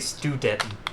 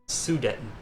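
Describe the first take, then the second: First: The word starts with an 'st' sound. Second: The word starts with a plain 's' sound. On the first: The speaker calls it wrong. "Sometimes I say that wrong. I say Studeten" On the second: The speaker calls it right. "No, that's not right. Sudeten"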